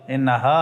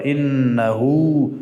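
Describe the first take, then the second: First: The final vowel is said with unrounded lips. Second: The final vowel is said with rounded lips. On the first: The speaker calls it wrong. "اتو نشک بگی که انها انها ها تواب الرحیم نگه" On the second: The speaker calls it right. "انها باید لبها گل شود"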